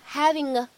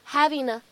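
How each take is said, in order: First: It links with an ng sound before 'a'. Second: It links with an n sound before 'a'. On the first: "使用后鼻音去连读" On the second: "偷懒，使用前鼻音呢去带一下连读"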